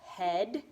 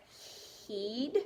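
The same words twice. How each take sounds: First: "Head" with a short eh; correct pronunciation. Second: "Heed" with a long ee, questioning; wrong pronunciation. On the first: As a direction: try "Head" to rhyme with "bed". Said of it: "E A could say E, or it could also say eh". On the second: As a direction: try "Heed" to rhyme with "need". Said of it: "I don't know what a heed is". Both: Shown as a demonstration.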